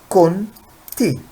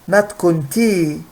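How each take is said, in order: First: The final vowel is short. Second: The final vowel is long. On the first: The speaker calls it right. "It's only short" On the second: The speaker calls it wrong.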